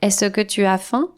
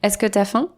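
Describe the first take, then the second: First: Every sound is fully pronounced. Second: Sounds are swallowed and tu becomes t'. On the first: The speaker calls it wrong. "quand on parle normalement, on ne dit pas" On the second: The speaker calls it right. "On avale une partie de « est-ce que » et on transforme souvent « tu » en « t » apostrophe"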